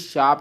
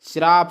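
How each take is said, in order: First: The word begins with a plain sh. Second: The word begins with the cluster shr. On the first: The speaker calls it right. "बल्कि शाप होता है" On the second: The speaker calls it wrong. "श्राप नहीं"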